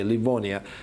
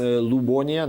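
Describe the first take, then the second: First: The name begins with a 'liv' sound. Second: The name begins with a 'lub' sound. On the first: The speaker calls it wrong. "we have no right to pronounce this uh, toponym that way" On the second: The speaker calls it right. "That means it's uh, Lubonia, not Livonia"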